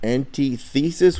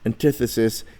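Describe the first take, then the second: First: It is split into 'anti' plus 'thesis'. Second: It is blended together, not split apart. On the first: The pronunciation helps with spelling. "the main reason for pronouncing it antithesis would be to help you with spelling" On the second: It is the usual pronunciation. "antithesis is a, a common pronunciation"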